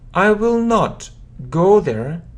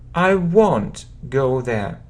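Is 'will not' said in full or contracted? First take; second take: full; contracted. First: Will not is said as two full words. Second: Will not is shortened to one syllable, won't.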